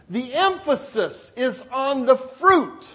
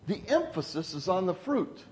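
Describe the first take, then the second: First: Measured, firm stress through "The emphasis is on the fruit". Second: Quiet emphasis. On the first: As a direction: restate it as the key point. Repeats the point more firmly. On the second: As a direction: drop the voice and let the point settle. Quiet take of repeated point. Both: Real, not acted.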